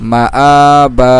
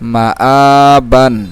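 First: The word ends with a drawn-out 'a' sound. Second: The word ends with a final 'an' sound. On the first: The reader stops on this word. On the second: The reader carries on without stopping.

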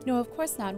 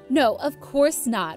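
First: It is said in a plain, neutral voice. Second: It is said in a mean, snide voice. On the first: The speaker calls it wrong. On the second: The speaker calls it right.

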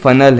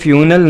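First: The first syllable sounds like 'fun'. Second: The first syllable sounds like 'few'. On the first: The speaker calls it right. "बल्कि ये फनल है" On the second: The speaker calls it wrong. "ये फ्यूनल नहीं है"

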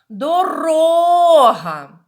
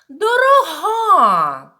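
First: The stress is on the second syllable. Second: The stress is on the third syllable. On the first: "наголошений склад у нас другий" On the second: "на останній, на третій"

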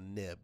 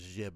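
First: The word begins with an n sound. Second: The word begins with a j sound. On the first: The speaker calls it right. "we still pronounce it nib. So if you want to sound like a pro, call them a nib" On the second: The speaker calls it wrong. "Don't call them a jib or something"

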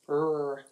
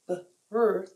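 First: The B and R are said quickly and blended. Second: The B and R are said slowly and separately. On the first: The speaker calls it right. "So instead we go R, like bright" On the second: The speaker calls it wrong. "but that's not very fast"

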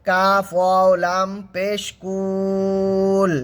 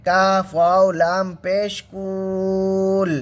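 The two takes are said the same way.

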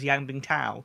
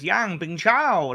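First: The name is said in a plain, ordinary way. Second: The name is said with exaggerated, over-enunciated sounds. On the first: This is how most people in the sport say it. "in the sport goes" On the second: This imitates one announcer's odd pronunciation. "he goes Yang Bingchao like that"

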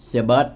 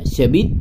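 First: The word bus is pronounced like English 'bus'. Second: The word bus is pronounced like 'bit'.

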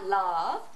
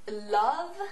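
First: The word starts directly with the L sound. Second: A short 'eul' sound comes before the L.

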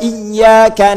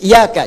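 First: The y sound is doubled and held long. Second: The y sound is single and short. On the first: The speaker calls it right. "kalau kita baca pakai tasydid" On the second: The speaker calls it wrong. "Ini ada yang baca tanpa tasydid"

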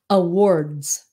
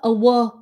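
First: The final consonant sounds are clearly pronounced. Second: The final consonant sounds are dropped.

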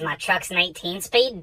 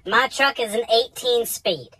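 First: It is said at a normal pace. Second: It is said slowly and deliberately.

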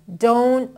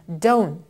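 No difference in how they are said.

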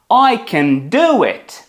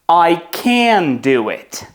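First: The stress falls on the word do. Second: The stress falls on the word can. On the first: The speaker is able to do it. "вони зроблять акцент на наступне дієслово після can" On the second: The speaker is not able to do it. "вони зроблять акцент на ось цей can"

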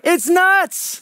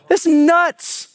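First: The phrase is said at loud volume. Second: The phrase is said at normal volume.

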